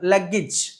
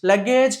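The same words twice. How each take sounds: First: The last syllable ends with an 'ij' sound. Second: The last syllable ends with an 'ej' sound. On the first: The speaker calls it right. "ఇజ్ అని చెప్తాం" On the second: The speaker calls it wrong. "లగేజ్ కాదు"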